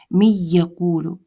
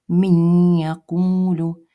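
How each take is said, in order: First: It is said without nasalization. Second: It is said with nasalization. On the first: "я сейчас не поднимаю язычок, да, безгунный читаю" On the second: "а теперь с назализацией"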